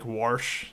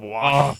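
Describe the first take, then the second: First: "warsh" with an added R before the sh; Virginia "warsh". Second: Said in the usual way. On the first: Shown as a demonstration. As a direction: put an R into wash, as "warsh". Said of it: "occasionally in Virginia you get people that say". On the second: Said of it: "instead of".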